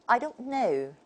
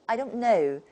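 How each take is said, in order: The two takes are said the same way.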